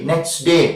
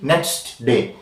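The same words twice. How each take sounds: First: Said quickly with the t of 'next' dropped. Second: Said slowly with the t of 'next' heard. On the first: "when you say in rapid speech" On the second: "isolation, slow speaking, next day, t audible, d audible"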